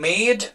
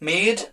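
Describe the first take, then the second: No difference in how they are said.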